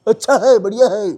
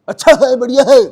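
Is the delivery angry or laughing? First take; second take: laughing; angry. First: It is said in a light, laughing, comic manner. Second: It is said in an aggressive, angry manner. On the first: "comedy करनी हो तो एक हंसने वाले उसके style" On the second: "aggressive होकर बोले थोड़ा सा गुस्से के साथ"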